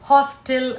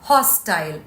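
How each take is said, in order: First: The last syllable is a short 'til'. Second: The last syllable rhymes with 'mile'.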